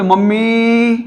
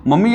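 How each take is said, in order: First: "mummy" with the last vowel held long and higher; drawn-out call. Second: Said in the usual way. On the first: Shown as a demonstration. Teacher showing how we call mother, drawn-out "mummy". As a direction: stretch "mummy" out on a raised, level note. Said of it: "ऐसे". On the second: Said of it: "लेकिन अपने बोले".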